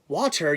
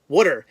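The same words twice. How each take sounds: First: It is said in a standard American accent. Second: It is said in a Philadelphia accent. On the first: "you don't say water" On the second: "you say water. Uh, W, like, W D D E R or something"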